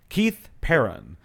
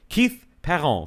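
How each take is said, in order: First: The surname is pronounced the English way. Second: The surname is pronounced the French way. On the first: This is how English-speaking friends said it. "English friends of mine, ... used to say Perron" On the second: This is how family and school said it. "the way it was pronounced in my family and at school was Perron"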